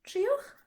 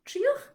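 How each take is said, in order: No difference in how they are said.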